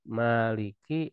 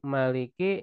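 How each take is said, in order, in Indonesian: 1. Vokal pertama dibaca panjang. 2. Vokal pertama dibaca pendek. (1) "Kalau dibaca pakai alif" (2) "yang pendek"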